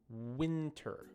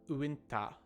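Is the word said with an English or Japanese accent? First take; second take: English; Japanese. First: Said with a natural English strong W sound. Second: Said with a Japanese accent and extra vowels. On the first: The speaker calls it right. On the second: The speaker calls it wrong. "instead of"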